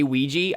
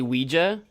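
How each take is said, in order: First: The word ends with an 'ee' sound. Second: The word ends with an 'ah' sound. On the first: "I actually don't say Ouija" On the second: "I say Ouija, which is a little bit closer to the correct spelling since it does end in an A"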